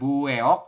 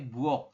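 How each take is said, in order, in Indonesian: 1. Vokal setelah 'bu' terdengar seperti 'eo'. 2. Vokal setelah 'bu' terdengar seperti 'o' biasa. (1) "bukan bueok" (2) "tapi buok seperti itu ya"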